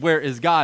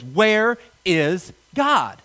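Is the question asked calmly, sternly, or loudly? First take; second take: calmly; sternly. First: It is asked in a calm, plain voice. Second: It is asked in a sterner tone.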